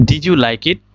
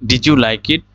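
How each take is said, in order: Both takes have the same delivery.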